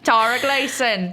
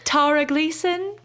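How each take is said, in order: First: It is said in a Cockney accent. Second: It is said in a posh British accent. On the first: "If you want the Cockney, I'll bring it out" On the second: "I just tried to say it in a British accent"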